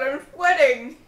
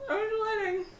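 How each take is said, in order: First: Said in the usual way. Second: Softer second "I'm sweating"; quiet, repeating "sweating". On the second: Real, not acted. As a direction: drop the volume on "sweating".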